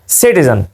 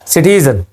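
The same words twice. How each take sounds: First: The stress is on the first syllable. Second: The stress is on the second syllable. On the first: "British accent में stress दिया जाता है पहले syllable पर" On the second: "ये दूसरे syllable पर, टी पर स्ट्रेस दे रहे हैं"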